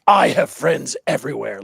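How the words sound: It is said in a menacing, threatening tone.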